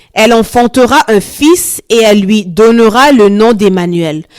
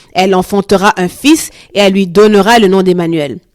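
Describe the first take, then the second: The two takes are said the same way.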